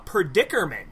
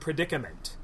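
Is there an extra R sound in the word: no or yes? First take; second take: yes; no. First: The word is said with an extra R sound. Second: The word is said without an extra R sound. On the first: The speaker calls it wrong. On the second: The speaker calls it right.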